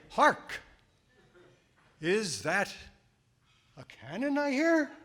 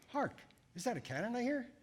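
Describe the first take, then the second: First: It is said in an overly dramatic way. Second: It is said in a flat, undramatic way.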